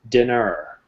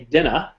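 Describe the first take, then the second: First: It is said in a North American accent. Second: It is said in a British accent.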